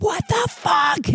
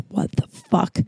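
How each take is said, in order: First: High-pitched, drawn-out retold yell; acted-out furious squawk; angry outburst. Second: Soft, whispery stunned curse; stunned disbelief. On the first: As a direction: screech it slowly in outrage, without full volume. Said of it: "I was so angry". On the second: Retold or imitated. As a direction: breathe it out in hushed disbelief. Stunned on finding table outside.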